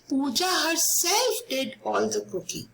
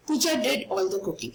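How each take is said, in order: First: "herself" raised in pitch and stressed. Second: Said in the usual way. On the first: Shown as a demonstration. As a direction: make "herself" stand out from the sentence. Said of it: "I'm emphasizing that Pooja did the cooking". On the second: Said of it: "it's a simple sentence".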